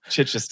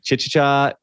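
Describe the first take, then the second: First: The name ends in a 'chester' sound. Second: The name ends in a short 'cha' sound. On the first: The speaker calls it right. "It's Chichester" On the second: The speaker calls it wrong. "I'm going to mispronounce this"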